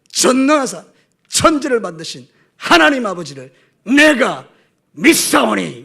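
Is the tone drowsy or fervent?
fervent. It is said fervently and powerfully.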